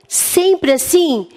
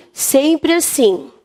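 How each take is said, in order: First: "Sempre assim?" asked slowly with a questioning lilt; questioning tune. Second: "Sempre assim." stated slowly, falling, as the answer; confirming statement. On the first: Teacher asking pupils if it always works, slow question. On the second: Teacher answering her own question for pupils, slow firm fall. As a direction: settle it firmly: "Sempre assim.". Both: Shown as a demonstration.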